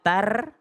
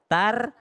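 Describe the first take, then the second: The two takes are said the same way.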